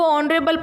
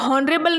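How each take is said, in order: First: The word starts with a vowel, no h sound. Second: The word starts with a clear h sound. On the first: The speaker calls it right. "जिसको ऑनरेबल पढ़ते हैं" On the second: The speaker calls it wrong. "हॉनरेबल नहीं पढ़ते"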